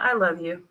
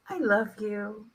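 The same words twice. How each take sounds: First: It is said flatly and dismissively. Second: It is said warmly and sincerely. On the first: "same words, different way" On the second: "just an automatic smile"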